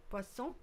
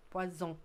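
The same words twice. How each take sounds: First: Poisson, keep the middle consonant an S. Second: Poisson said with a buzzing Z; poisson, the middle consonant turned to Z; poison with Z. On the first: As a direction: say poisson as pwa-SON, unvoiced S. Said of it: "make a difference with saying poisson". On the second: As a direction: say poisson as pwa-ZON, voiced Z. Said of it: "another one is poison". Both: Shown as a demonstration.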